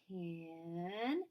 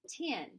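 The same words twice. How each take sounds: First: The word is stretched out slowly, sound by sound. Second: The word is said quickly as one normal word. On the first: "Now let's say it slowly" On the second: "And say it fast like a word"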